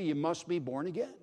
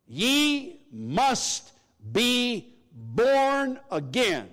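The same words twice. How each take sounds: First: Said in the usual way. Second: "Ye ... must ... be ... born again", very slow and high, each word drawn out; "Ye must be born again" stretched out in raised, ringing emphasis; emphatic. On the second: Shown as a demonstration. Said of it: "It's an emphatic message".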